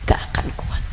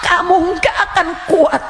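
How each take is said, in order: First: Breathy whisper after the shout; whispered warning. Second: Loud, high, final blow; shouted warning. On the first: Preacher echoing her warning to the congregation, hushed whisper. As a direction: let it fall to a chilling whisper. Echo after long pause. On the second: Preacher warning listeners about hell, loud shout. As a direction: hurl the warning at them. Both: Acted.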